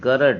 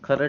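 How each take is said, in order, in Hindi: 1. शब्द की शुरुआत कड़ी 'g' ध्वनि से होती है। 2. शब्द की शुरुआत साँस वाली 'kh' ध्वनि से होती है। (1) "खरड नहीं गरड है" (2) "हर बार यही गलती होती है, गा की जगह खा निकलता है"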